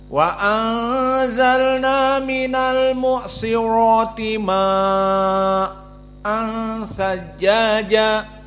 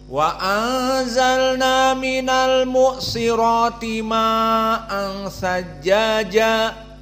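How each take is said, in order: First: The vowel is held long, then briefly stopped. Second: The vowel is held for a medium length. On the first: "qiraah Hamzah" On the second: "Qiraah jumhur ... tawassut"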